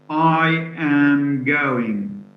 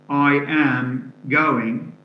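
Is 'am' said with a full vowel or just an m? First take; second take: full vowel; full vowel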